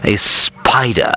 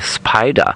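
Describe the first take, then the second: First: It is said in an exaggerated posh English accent. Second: It is said with a German accent.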